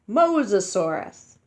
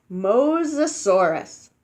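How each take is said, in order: First: Said in the usual way. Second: Mosasaurus said slowly, MO-sa-SAU-rus, each syllable clear; careful pronunciation. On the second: Shown as a demonstration. Teaching children a dinosaur name, slow and clear. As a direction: sound out Mosasaurus slowly for kids to repeat. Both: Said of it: "You say it like this".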